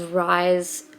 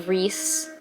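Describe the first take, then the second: First: The vowel sounds like 'eye', rhyming with 'nice'. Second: The vowel sounds like 'ee', rhyming with 'peace'. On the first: The speaker calls it wrong. "I definitely was just pronouncing this guy's name as Rise" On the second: The speaker calls it right. "and it's apparently Reese"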